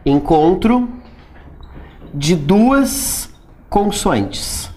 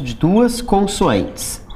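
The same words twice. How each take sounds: First: De duas consoantes drawn out very slowly, duas stressed; slow, spelled out. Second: Said in the usual way. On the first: Shown as a demonstration. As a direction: lay out "de duas consoantes" word by word for the class. (bem devagar, destacando "duas") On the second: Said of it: "o encontro consonantal vai ser".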